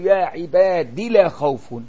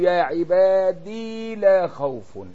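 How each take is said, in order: First: The word ends without a long ee vowel. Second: The word ends with a long ee vowel. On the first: "والحذف عن شاكر دلا" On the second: "يقولوا يا عبادي وصلا ووقفا"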